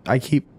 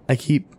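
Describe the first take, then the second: The two takes are said the same way.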